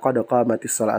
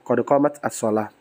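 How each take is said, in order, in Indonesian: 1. Qamat menyambung ke kata berikutnya dengan i. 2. Qamat diucapkan terpisah sebelum as-shalah. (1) "maka digunakan qad qamatis shalatu" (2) "bukan qad qamat as-shalah"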